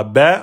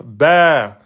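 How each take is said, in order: First: "ba" on one short beat; short "ba", not prolonged; short vowel. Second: "ba" drawn out over two beats; long vowel. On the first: Teacher showing the wrong length, one-beat "ba". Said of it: "vous direz pas ba". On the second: Teacher showing the required length, long "ba". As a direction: stretch the vowel of "ba". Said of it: "obligé de passer en deux temps". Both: Shown as a demonstration.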